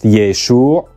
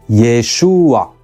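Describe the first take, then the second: First: The final guttural consonant is pronounced strongly. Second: A short extra vowel comes before the final sound. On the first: "with the final guttural strongly pronounced" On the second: "with a helping vowel to help pronounce the ah"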